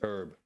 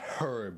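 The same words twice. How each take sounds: First: The word is said the American way. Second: The word is said the British way. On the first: The speaker calls it right. "it's herb" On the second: The speaker calls it wrong. "So it's not herb"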